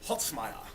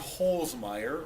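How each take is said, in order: First: The name is said with a German pronunciation. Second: The name is said with an English pronunciation. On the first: "or as they would say in Germany" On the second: "It's actually"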